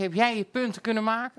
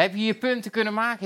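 First: Jij lifted and leaned on, rising; weight the question onto jij; stress on jij. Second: Said in the usual way. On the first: Real, not acted. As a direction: put the stress on jij, not on punten.

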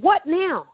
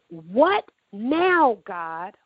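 First: What now? flung up high like a cry; a sharper, higher outcry at God; retold cry, pitched high. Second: Retold scream. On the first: Woman crying out to God from her hospital bed, pitch thrown high. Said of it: "I said".

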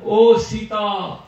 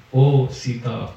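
First: "oh Sita" drawn out slowly and high as a distant cry; calling out in Ram's voice. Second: "Oh, Sita" said low, slow and gently; calm reasoning. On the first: Demon mimicking Ram, calling Sita in a slow high cry. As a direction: stretch "oh Sita" into a slow, high, desperate call. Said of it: "he shouted very loudly in Ram's voice". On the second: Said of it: "And he calmly reasoned". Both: Acted.

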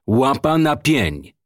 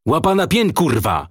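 First: Slow, drawn-out command, raised pitch; deliberate raised-voice command; insistent order. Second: High, forceful shouted order; narrated shout of command; commissioner's shout. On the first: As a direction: repeat the order slowly, stretching each word. Commissioner repeats his shouted order. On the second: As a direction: shout the order, pitch jumping up then dropping on the curse. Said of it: "krzyknął komisarz". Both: A narrator's reading.

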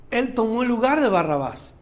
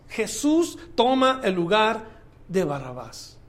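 First: Said in the usual way. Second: Solemn, slowed repetition falling away at the end; slow weighty emphasis. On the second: Acted. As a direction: lay each word down slowly and let Barrabás sink. Repeats the line, slower and sinking.

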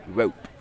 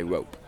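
First: "rope" with a clearly sounded final P; posh British "rope", the P crisply audible; British enunciated P. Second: "rope" as Americans typically say it; "rope" with an ordinary, unemphasised P; American pronunciation. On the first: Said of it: "I try to enunciate the P". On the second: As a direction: say "rope" without stressing the P. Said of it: "Americans typically would say". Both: Shown as a demonstration.

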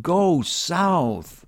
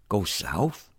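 First: High, drawn-out booming shout. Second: Puzzled, rising question at normal volume. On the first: Retold or imitated. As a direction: call it out high and long, like a command from nowhere. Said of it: "I hear this shout". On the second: Acted. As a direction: query it as if it makes no sense. Questioning the shout he heard.

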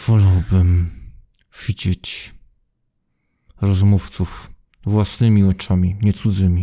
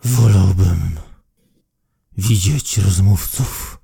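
First: Low voice pushed through clenched teeth; through gritted teeth. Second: Low, slow words through clenched teeth; through gritted teeth. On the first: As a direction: keep the jaw shut as you speak. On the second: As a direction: speak without opening the jaw. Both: Acted. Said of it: "mówi przez zaciśnięte zęby".

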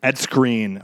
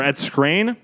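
First: Ed Skrein with Skrein like "screen", falling; first guessed pronunciation. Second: Ed Skrein as a questioning second guess, Skrein rising; alternative pronunciation. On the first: Podcaster tries out an actor's name, first guess at Skrein, falling. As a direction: say Skrein as "screen", settling down at the end. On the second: Podcaster offers another guess at an actor's name, questioning rise on Skrein. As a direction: lift Skrein upward, unsure how it is said. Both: Shown as a demonstration. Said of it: "No one knows how to pronounce your name".

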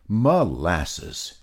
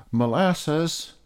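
First: Yell. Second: High calling shout of a name; high shout to a friend. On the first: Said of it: "yelled Peter". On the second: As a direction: call out across the garden. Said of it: "shouted Peter". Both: Acted.

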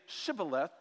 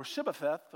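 First: Said in the usual way. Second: "Shibbotheth", second consonant turned to a lisped th; garbled Shibboleth. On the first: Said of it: "they couldn't say Shibboleth". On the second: Shown as a demonstration. Preacher showing the enemies' slip, "Shibbotheth" misarticulated. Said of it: "without having a bad accent".

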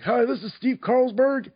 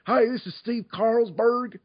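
First: High-pitched, perky character greeting; put-on high character voice; Steve Carlsberg as remembered. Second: High, slow Southern drawl; put-on Southern character voice, pitched high; Southern accent. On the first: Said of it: "All I remember was me going". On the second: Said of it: "I did it with a Southern accent".

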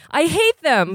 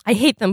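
First: Cries out. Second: A lightly voiced cry, a little raised; a hint of crying out, near the reader's own voice; mild cry. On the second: Boy cries out about the staff, a lightly voiced cry. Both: A narrator's reading. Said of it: "Blot cries out".

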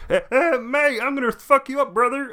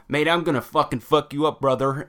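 First: Much higher, hammed-up British tough guy; same threat, now in a bad British accent; mock British accent. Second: Mock American accent. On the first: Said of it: "British accent". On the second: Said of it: "he was talking in an American accent".

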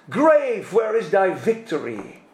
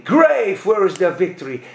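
First: Quoting in English; English quote. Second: Punchy, louder repeat; louder declaimed King James line; louder English quote. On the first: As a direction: recite the English verse. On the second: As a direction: hammer the English line again. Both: Retold or imitated. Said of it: "zegt hij".

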